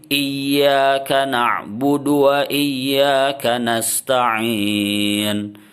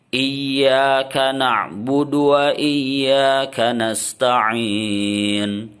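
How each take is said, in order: Both takes have the same delivery.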